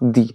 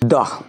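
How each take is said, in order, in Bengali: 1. শব্দটি দীর্ঘ ee স্বরে শেষ হয়। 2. শব্দটি ছোট uh স্বরে শেষ হয়। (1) "যদি কোনো ভাওয়েল থাকতো তাহলে টি এর উচ্চারণ হতো দি।" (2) "উচ্চারণ দা কেন করলাম? কেন কি টি আছে, টি কি কনসোনেন্ট"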